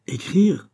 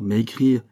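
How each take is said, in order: First: High, rising, incredulous repeat; pitched way up in disbelief; questioning echo. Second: Said in the usual way. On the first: A narrator's reading. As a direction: echo "Écrire" as a startled question. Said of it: "répéta Pitou".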